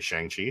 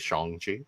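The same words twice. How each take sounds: First: It is said the usual anglicized way. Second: It is said the more authentic way. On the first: "he didn't say Shang-Chi" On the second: "I'm sure it's more authentic"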